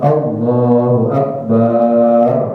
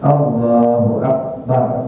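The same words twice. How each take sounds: First: The vowel in the final syllable is drawn out long. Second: The vowel in the final syllable is kept short. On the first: The speaker calls it wrong. "nggak boleh ... barnya dipanjangin nih bar" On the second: The speaker calls it right. "jadi barnya pendek aja"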